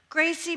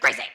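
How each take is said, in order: First: The name is said softly and lovingly. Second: The name is said sharply and sternly. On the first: This is an early, patient correction. "I say it with so much love. Hear it like I'm telling my puppy no" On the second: Patience has run out after repeated warnings. "About the third time is like"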